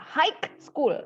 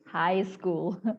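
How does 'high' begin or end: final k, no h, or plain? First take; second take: final k; plain. First: The word high ends with a k sound. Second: The word high has an h and no k. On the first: The speaker calls it wrong. "pakai K" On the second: The speaker calls it right. "dia silent, artinya tidak diucapkan"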